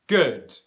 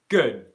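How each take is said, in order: First: The final D releases only a little air. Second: The final D is held with no air released. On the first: "where there's just a little bit of airflow coming out" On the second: "stopped airflow, but then no airflow has come out"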